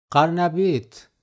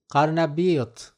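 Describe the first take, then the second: No difference in how they are said.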